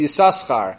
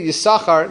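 First: The s sound is pronounced twice. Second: The s sound is pronounced once. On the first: This is how the name is read the first time. "read Yisachar the first time in the Torah with two sins" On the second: This is how the name is read every later time. "in all subsequent times, the Chazon Ish instructed the Baal Koreh that he should read it Yisachar"

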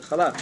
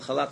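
First: The word begins with a throaty, rasping ch sound. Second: The word begins with a plain, soft h sound. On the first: The speaker calls it right. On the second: The speaker calls it wrong.

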